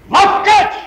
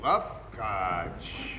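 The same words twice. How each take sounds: First: Loud and higher, delighted; gleeful cry; admiring exclamation. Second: A low, soft murmur of grudging awe; whispery admiration; quiet musing. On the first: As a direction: burst out with it in admiration. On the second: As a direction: turn the word over to yourself. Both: Acted. Husband muses, then exclaims.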